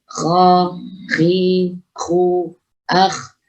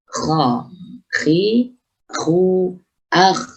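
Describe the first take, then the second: The two takes are said the same way.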